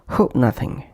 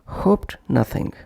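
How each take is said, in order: First: The t sound after hope is dropped. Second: The t sound after hope is heard. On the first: "would become hope nothing" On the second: "pronounced as hoped nothing"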